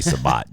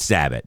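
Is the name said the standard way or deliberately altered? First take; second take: altered; standard. First: The name is said in a deliberately altered form. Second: The name is said in its standard form. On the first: The name is mangled as a running joke. The speaker calls it wrong. "the running joke is we all say Sabat" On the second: This is how the person's name really goes. The speaker calls it right. "It's Sabat"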